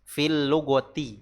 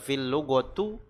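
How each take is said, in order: First: The last word ends in an i vowel. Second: The last word ends in a u vowel. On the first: The speaker calls it right. "huruf terakhir dari kalimat yang datang setelah huruf jar dibaca kasroh" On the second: The speaker calls it wrong. "Bukan dibaca fil lugotu"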